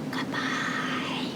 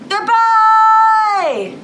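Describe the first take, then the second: First: It is said very quietly. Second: It is said very loudly. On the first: "as quiet as we can" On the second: "What's the opposite of loud?"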